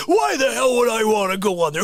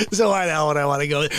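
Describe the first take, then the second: First: Exasperated repeat. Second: Said in the usual way. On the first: Real, not acted. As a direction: throw the question up in disbelief. Same words repeated, heated.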